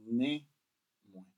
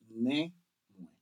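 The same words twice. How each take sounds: The two takes are said the same way.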